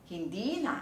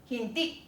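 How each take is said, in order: First: "hindi na" with long linked "di"; glottal stop gone. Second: "hindi" cut short on the last i; glottal stop. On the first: Teacher showing learners the lost catch, "hindi na" linked. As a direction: let "di" flow into "na" in "hindi na". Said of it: "那个顿一下的东西不见了". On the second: Teacher pointing out the catch, "hindi" ending in glottal stop. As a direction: close the throat abruptly after "hindi". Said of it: "顿一下". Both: Shown as a demonstration.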